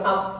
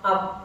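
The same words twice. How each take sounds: The two takes are said the same way.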